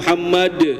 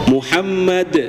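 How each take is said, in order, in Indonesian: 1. Bunyi d terdengar keras, dengan lidah di gusi. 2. Bunyi d terdengar lembut, dengan lidah di gigi. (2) "harus ke gigi"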